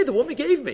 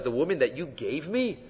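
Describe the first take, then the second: First: Said in the usual way. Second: "you gave me" picked out in a lower, softer voice; emphasis on "you gave me". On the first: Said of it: "Just say". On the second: Shown as a demonstration. Rabbi quoting Adam's needless emphasis, "you gave me" picked out softly. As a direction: point up "you gave me" quietly. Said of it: "You don't have to emphasize".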